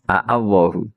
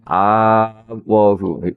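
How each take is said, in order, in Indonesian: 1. Dua vokal hamzah diucapkan terpisah di awal. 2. Awalnya digabung jadi satu vokal panjang. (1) "Berarti dari kata apa? Allahu napa?" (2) "Kemudian diidgham kan jadi apa?"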